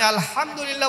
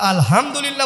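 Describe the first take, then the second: First: The h is tight, from deep in the throat. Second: The h is a light, ordinary breathy sound. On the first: All praise is for God. The speaker calls it right. "প্রশংসা হয়ে গেল" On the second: All rotten, foul things are for God. The speaker calls it wrong. "সব পচা জিনিস হয়ে গেল"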